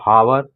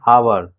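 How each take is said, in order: First: The word begins with an h sound. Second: The word begins directly with a vowel sound. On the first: The speaker calls it wrong. "Not हावर" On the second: The speaker calls it right. "जैसे आवर बोला जाता है"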